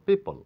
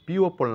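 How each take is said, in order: First: No extra vowel is sounded in the middle. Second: An extra 'o' vowel is sounded in the middle. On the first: The speaker calls it right. "ও এর কোনো sound নেই" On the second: The speaker calls it wrong. "পিওপল না বলে বলবো পিপল"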